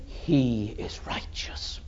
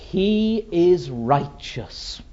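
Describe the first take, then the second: First: Soft, solemn pronouncement, almost whispered; hushed verdict. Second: Slow, emphatic pronouncement in full voice; slow, weighty pulpit declaration; solemn declaration. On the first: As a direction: breathe it out with quiet awe. Father's verdict after the climax. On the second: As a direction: declare it as a verdict, word by word. God's verdict declared in sermon. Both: Acted.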